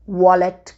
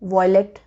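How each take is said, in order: First: The first vowel sounds like 'ah'. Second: The first vowel sounds like 'eye'. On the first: The speaker calls it right. "वॉलेट correct है" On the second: The speaker calls it wrong. "वॉयलेट wrong है"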